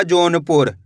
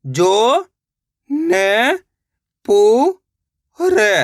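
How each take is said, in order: First: Said in the usual way. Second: Jaunpur split into जो, न, पु, र with long pauses; syllable by syllable. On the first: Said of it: "तो मिलके बन जाएगा". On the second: Shown as a demonstration. Teacher showing learners how to read, Jaunpur sounded out slowly syllable by syllable. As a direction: stretch each syllable of Jaunpur on its own, very slowly. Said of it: "एक एक अक्षर का उच्चारण करके".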